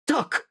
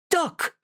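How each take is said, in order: First: Sharp, high cry of duck; high yelp of warning. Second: Even higher, crying out Duck in panic; a panicked cry, voice cracking up high; frightened high cry. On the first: Warning a friend of sudden danger, a high yelp. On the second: Warning a friend of sudden danger, a panicked high cry. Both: Acted.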